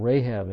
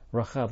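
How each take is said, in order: First: The name has an English-style pronunciation. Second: The name has a Hebrew-style pronunciation.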